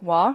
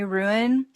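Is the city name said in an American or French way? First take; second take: French; American. First: It is said as a single short French-like syllable. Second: It is said like the English word ruin. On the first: This is how people in the town say it. The speaker calls it right. "when you go there, it's more like wah" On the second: This is how locals back home say it. The speaker calls it wrong. "Alabamians would probably say ruin"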